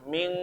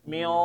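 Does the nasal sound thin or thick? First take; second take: thin; thick. First: The nasal sound is light, like eng. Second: The nasal sound is heavy, like o. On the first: The next letter is kaf. "kayak eng" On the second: The next letter is qaf. "dengungnya tebal ... mil kayak o"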